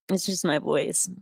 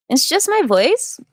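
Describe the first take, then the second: First: Said in the usual way. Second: High, slow drawn-out upspeak rising at the end; Lena Dunham impression. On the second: Shown as a demonstration. Doing a Lena Dunham voice for the livestream viewers, high and slow. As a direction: lift "It's just my voice." up high and let it rise slowly. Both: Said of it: "I can do a good Lena Dunham impression".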